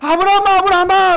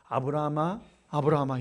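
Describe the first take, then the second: First: The name is called out urgently and with force. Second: The name is called in a relaxed, unhurried way.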